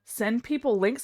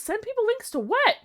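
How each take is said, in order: First: Said in the usual way. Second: High, confused rising question; baffled squeak; puzzled. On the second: Real, not acted. Puzzled reading.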